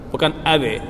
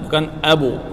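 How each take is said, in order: First: The b is followed by an e vowel. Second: The b is followed by a u vowel.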